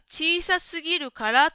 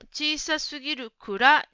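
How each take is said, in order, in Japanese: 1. このフレーズは kara の音節で終わる。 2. このフレーズは kura の音節で終わる。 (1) "小さすぎるからというところも、" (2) "小さすぎるくらになっていました。かがくになっていましたね"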